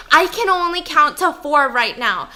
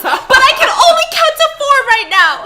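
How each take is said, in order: First: A touch louder, at normal pitch; mildly raised insistent repeat; calmer insistence. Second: High, loud and fast frantic cry; frantic high shout to his sleepy wife; panicked yell. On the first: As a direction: repeat it with firm mild urgency. Husband pleading with wife. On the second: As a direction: rattle it off in mock panic. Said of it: "more and more panicked". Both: Retold or imitated.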